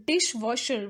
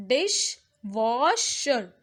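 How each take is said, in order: First: Said in the usual way. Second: Dishwasher slowly split as dish, wash, er; syllable by syllable. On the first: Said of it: "We pronounce it as". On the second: Shown as a demonstration. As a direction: sound out dishwasher in three separate beats. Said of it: "these are the three syllables".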